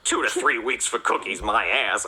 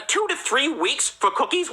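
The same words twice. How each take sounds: First: Understated, lower, scornful grumble; lightly acted sulky disgust; retold grumbling anger. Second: High, drawn-out disbelieving question; incredulous indignation. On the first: Cop grumbling alone on the couch, understated anger. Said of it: "I say as I shove a cookie into my mouth in anger". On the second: Acted. Cop ranting about the Girl Scouts' delay, high disbelief. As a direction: echo the outrageous wait, slowly and high.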